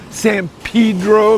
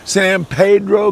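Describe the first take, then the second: First: It is said with an anglicized English pronunciation. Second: It is said with a Spanish pronunciation.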